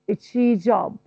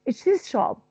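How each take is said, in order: First: The z and sh merge into one zh sound. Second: The z and sh sounds are kept separate.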